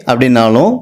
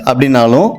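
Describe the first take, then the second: No difference in how they are said.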